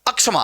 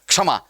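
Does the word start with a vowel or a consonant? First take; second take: vowel; consonant. First: It begins with an extra vowel sound. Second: It begins directly with the consonant sound. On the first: The speaker calls it wrong. "और न ही अक्षमा" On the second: The speaker calls it right. "क्या है, क्षमा"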